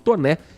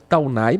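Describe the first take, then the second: First: The name is said as Toné, ending in é. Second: The name is said as spelled, Taunay. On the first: The speaker calls it right. "mas é o correto é o Visconde de Toné" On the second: The speaker calls it wrong. "ou se preferir a pronúncia Taunay"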